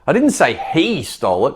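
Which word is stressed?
he. The stress is on he.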